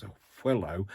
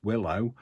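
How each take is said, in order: First: "willow" said as "hwillow"; breathy wh onset. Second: Said in the usual way. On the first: Shown as a demonstration. Puzzling over her own slip, "willow" as "hwillow". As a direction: put a puff of h before "willow". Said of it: "I don't know why it's a willow". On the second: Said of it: "It's willow".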